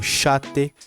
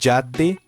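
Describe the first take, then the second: First: The first consonant sounds like 'sh'. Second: The first consonant sounds like 'dj'. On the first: "ela pode ser pronunciada como chate ... mais ali na região, tanto da Argentina, Uruguai e Paraguai" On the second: "Som de D J"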